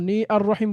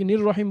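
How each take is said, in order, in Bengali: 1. 'ar' এর 'a' আলাদা একটি অক্ষর হিসেবে উচ্চারিত হয়। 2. 'a' বাদ পড়ে যায় এবং শব্দগুলো একসাথে মিশে যায়। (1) "নি আর রহিম বলছি নাকি" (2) "নির রহিম বলছি"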